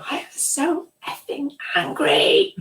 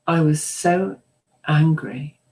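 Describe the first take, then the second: First: High-pitched mock scream of fury; retold angry scream. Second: Said in the usual way. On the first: Repressed client finally shows the therapist her anger, screamed high. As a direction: let the anger burst out, pitched way up. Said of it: "she screamed". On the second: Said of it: "is that how angry looks?".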